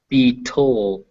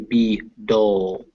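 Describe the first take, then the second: First: The second syllable starts with a T sound. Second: The second syllable starts with a D sound. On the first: The speaker calls it wrong. "you don't want to say be toll" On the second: The speaker calls it right. "you want to say be dull"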